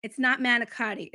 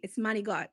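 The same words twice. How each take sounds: First: "manicotti" with every syllable, the American way; "manicotti" said the plain way. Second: "manigot" said "mah-nee-gut", final vowel dropped; "manigot" the way the grandmother says it; Italian-American manigot. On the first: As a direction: say "manicotti" fully, like on a menu. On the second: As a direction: clip it to "manigot", dialect style. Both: Shown as a demonstration.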